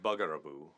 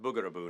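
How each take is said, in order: First: The first syllable has a short 'uh' vowel. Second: The first syllable has a long 'oo' vowel. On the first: The speaker calls it wrong. "not bugaraboo" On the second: The speaker calls it right. "it is pronounced boogaraboo"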